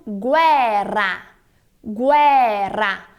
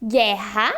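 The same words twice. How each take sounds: First: "guerra" as GWE-rra, low with a rolled RR; Italian trilled R. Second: "Guerra" as GHE-ha, no U sound, H-like R; Portuguese R. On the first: Teacher contrasting with Portuguese, Italian trill. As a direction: draw out "Guerra", sounding the U and trilling the R. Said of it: "Em italiano". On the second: Teacher contrasting with Italian, Portuguese R. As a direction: say "Guerra" low with a breathy, untrilled RR. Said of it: "em português". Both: Shown as a demonstration.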